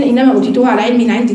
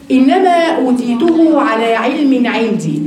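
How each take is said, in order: First: Said in the usual way. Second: Slow proud quote. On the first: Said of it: "عارفين". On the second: Shown as a demonstration. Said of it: "قارون قد إيه استكبر؟".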